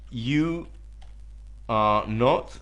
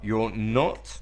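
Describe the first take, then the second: First: "You are" is said as two full words. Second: "You are" is joined into one syllable. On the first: "You can say, you are not" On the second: "you can contract you are"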